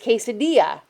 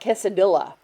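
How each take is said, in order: First: The double L is said as a Y sound. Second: The double L is said as an L sound. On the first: The speaker calls it right. "double L's are a Y sound. So it's quesadilla" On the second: The speaker calls it wrong. "It's not quesadilla"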